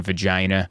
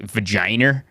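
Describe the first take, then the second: First: Said in the usual way. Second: "vagina" ending in an R, like "vaginer"; slow questioning "vagina" with R on the end; added R. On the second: Shown as a demonstration. Host mocking the boss's habit, R added to "vagina". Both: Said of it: "There's no R in vagina".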